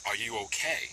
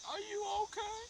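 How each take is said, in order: First: Said in the usual way. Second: A squeaky, high-pitched put-on voice asking are you okay; high mock concern. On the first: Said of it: "it's the trick is". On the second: Mimicking the man checking on her, high and squeaky. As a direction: squeak it out in a silly falsetto. Mocking a man's concerned question.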